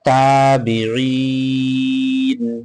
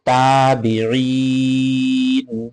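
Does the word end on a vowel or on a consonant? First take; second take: consonant; consonant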